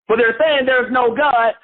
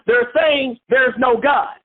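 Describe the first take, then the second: First: Said in the usual way. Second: Slow, shouted and drawn out; emphatic shout. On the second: Real, not acted. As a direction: call it out slowly to the class. Preacher stressing atheists' denial.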